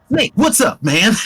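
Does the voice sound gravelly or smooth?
smooth. The voice is smoother, with little gravel.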